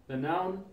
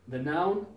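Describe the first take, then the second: No difference in how they are said.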